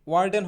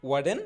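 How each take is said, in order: First: Said in the usual way. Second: ওয়ার্ডেন starting "waa", the r left silent; corrected pronunciation. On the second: Shown as a demonstration. Teacher modelling warden for learners, ওয়ার্ডেন as "waa-den". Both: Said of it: "ওয়ার্ডেন হবে না".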